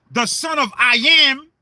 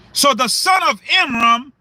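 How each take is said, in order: First: Amram broken into I am; split pronunciation. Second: Said in the usual way. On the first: Shown as a demonstration. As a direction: say the name as the words I am, split apart. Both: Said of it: "Pronounce that word".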